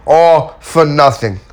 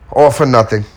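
First: "All for nothing." slow, higher and louder, leaning on all; slow emphatic repeat. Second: Said in the usual way. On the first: Shown as a demonstration. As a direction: drag out "All for nothing" to drive it home.

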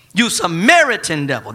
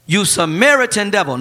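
First: "Samaritan" punched, louder; stress on Samaritan. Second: A hint of a sneering crowd; mock insult. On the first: Acted. Preacher stressing the slur to the congregation. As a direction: lean hard on "Samaritan". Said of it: "not just a devil". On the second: Crowd insulting Jesus, lightly mocking. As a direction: spit out the slur lightly. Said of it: "The people retorted".

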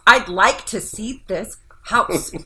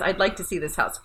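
First: Slow, drawn-out mock whine, louder; whiny reading. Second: Said in the usual way. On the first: Imitating how a client's text sounds to her, whiny. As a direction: drag each word out in a whine. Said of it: "They aren't saying it like that to me". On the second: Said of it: "there's no inflection in text".

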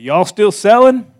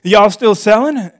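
First: A light Missouri twang on y'all, higher and louder; old Missouri gentleman asking y'all still selling, slowly; Missouri drawl. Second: Repeated Missouri twang on y'all, higher and louder; Missouri drawl. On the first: Old man asking about the house, Missouri accent. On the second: Preacher repeating the buyer's words, Missouri accent. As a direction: say it again like a Missouri local. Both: Retold or imitated. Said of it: "That's how they talk in Missouri".

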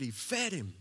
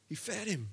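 First: Said in the usual way. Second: Softer, higher tender repeat; softly repeated: He fed him. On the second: Acted. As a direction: let it land gently, a quiet marvel. Repeated for emphasis.

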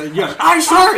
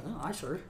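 First: High, loud mock sounding off; shouted recruit response. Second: Soft, conversational acknowledgement; casual soft response. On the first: Recruit answering an insulting sergeant, imitated shout. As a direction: yell the acknowledgement like a recruit. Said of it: "I can't fucking hear you". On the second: Retold or imitated. Recruit caught off guard by talking sergeant, quiet. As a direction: drop to a quiet, natural reply. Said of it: "you would naturally be like".

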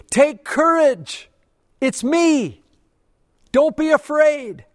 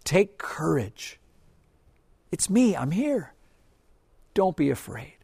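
First: High, loud, slow call across the storm; Jesus calling out. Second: Gentle reassurance. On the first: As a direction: shout it out over the wind to scared men. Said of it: "and He yells". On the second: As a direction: say it close, like comforting a frightened friend. God's message, said gently. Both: Acted.

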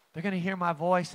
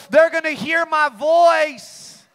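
First: Hushed echo. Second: Loud, high and slow: They're gonna hear my voice; shouted proclamation. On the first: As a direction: drop to a quick quiet aside. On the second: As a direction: shout it out, drawing each word. Loud climax then hushed repeat. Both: Acted.

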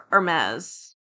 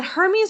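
First: "Hermes" with silent H and short E ending; er-MEZ pronunciation. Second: "Hermes" with a sounded H and a long EE ending; HER-meez pronunciation. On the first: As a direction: try "Hermes" as er-MEZ, questioning. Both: Shown as a demonstration. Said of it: "is it Hermes or".

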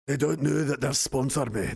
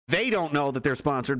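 First: Put-on Scottish brogue; Scottish accent. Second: Said in the usual way. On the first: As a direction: say it as a hammy Scot. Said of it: "Ian hates my Scottish accent".

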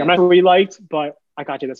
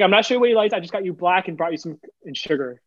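First: High and louder, kind coworker; sweet coworker voice. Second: High, gentle, kind coworker; sweet coworker voice. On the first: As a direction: voice her sweetly, higher and louder. Retold again, louder. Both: Retold or imitated.

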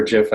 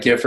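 First: Gif with a soft g, "jif"; soft-g pronunciation. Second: Gif with a hard g, as in "gift"; hard-g pronunciation. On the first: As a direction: say gif starting like "jet". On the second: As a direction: say gif starting like "give". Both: Shown as a demonstration. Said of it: "It's like gif or gif".

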